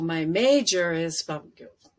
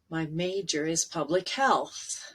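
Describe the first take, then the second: First: The voice drops down and fades at the end. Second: The voice stays strong through the final words. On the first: The speaker calls it wrong. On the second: The speaker calls it right.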